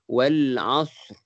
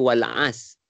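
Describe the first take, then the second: First: The word ends with a faint, brief r vibration. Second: The word ends on s with no r sound. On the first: The speaker calls it right. "Ada bunyi ra tapi sikit" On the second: The speaker calls it wrong. "A-S je. Sebenarnya salah lah patutnya"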